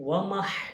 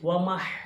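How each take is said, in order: Both takes have the same delivery.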